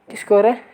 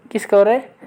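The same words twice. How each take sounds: The two takes are said the same way.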